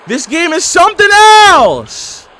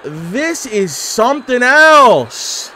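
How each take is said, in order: First: Much higher and louder, stretched out slowly; loud disbelief. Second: Drawn out slowly, voice rising in awe; stunned disbelief. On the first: Gamer yelling at an absurd wrestling game, slow loud outcry. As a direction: cry it out like you can't believe your eyes. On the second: Gamer stunned by a ridiculous wrestling game, slow awed drawl. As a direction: let each word hang in disbelief. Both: Real, not acted.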